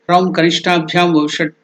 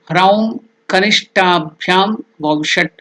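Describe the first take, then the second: First: The phrase is recited quickly in a run. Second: The phrase is recited slowly and deliberately.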